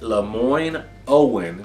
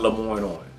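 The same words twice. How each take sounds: First: The name is pronounced carefully and formally. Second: The name is pronounced in a casual local way. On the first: The speaker is presenting as a professional. The speaker calls it right. "step into the full professional um, stance" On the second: The speaker is talking as a local. The speaker calls it wrong. "Being from Memphis, I pronounce it Lemoyne like most times"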